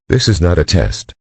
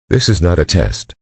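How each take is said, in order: Both takes have the same delivery.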